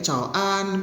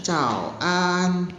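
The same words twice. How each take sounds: First: Cao an with an said flat in first tone, slowly; wrong tone demo. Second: Cao an with an falling sharply in fourth tone; correct tone demo. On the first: Teacher showing the wrong first tone on an. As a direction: say an level and drawn out, the wrong way. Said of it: "annya nada pertama". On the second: Teacher showing correct falling tone of an. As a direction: drop an hard, fourth tone. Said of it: "kalau an gitu jatuh kan". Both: Shown as a demonstration.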